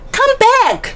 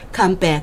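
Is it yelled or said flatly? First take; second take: yelled; flatly. First: It is yelled with strong emotion. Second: It is said flatly, without emotion.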